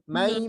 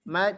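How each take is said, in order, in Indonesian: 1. Suaranya lewat hidung dan terdengar sengau. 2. Suaranya keluar lewat mulut. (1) "kalau gini bunyinya mai mati. Suaranya mati" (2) "masih mai lewat mulut"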